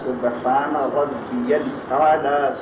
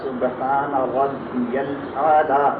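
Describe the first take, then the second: Both takes have the same delivery.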